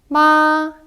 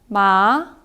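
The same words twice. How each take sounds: First: The pitch stays high and level throughout. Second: The pitch rises from lower to higher. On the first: "일성은 굉장히 높은 쭉 곧게 뻗은 음이에요" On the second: "이성은 올라가는 소리입니다"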